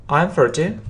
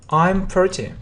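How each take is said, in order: Both takes have the same delivery.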